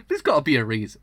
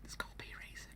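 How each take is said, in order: First: Said in the usual way. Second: Breathy whispered repeat; hushed whisper. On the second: Real, not acted. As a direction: whisper it to yourself.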